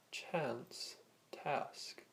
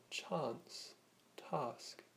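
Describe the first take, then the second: First: "chance" and "task" with the short a of cat; short-a pronunciation. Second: "chance" and "task" with a long open ah; long-a pronunciation. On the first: Teacher showing how many pronounce two words, short a in "chance, task". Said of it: "many would pronounce these two words as". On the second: Teacher showing the alternative pronunciation, long ah in "chance, task". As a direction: say "chance, task" slowly as chahnce, tahsk. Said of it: "many people would instead pronounce these words". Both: Shown as a demonstration.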